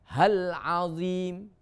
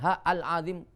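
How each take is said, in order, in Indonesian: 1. Kata-katanya menyambung tanpa hentian. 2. Hamzah memisahkan kedua kata.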